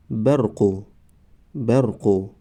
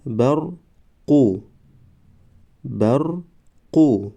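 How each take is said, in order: First: Said in the usual way. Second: Slow, syllables held and separated; slow syllable reading. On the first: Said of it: "به مثل خوانش سوم و چهارم". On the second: Shown as a demonstration. Teacher models first readings for learners, slow syllable by syllable. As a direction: sound it out for learners, pausing between syllables. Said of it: "بار یکم و دویم آهسته".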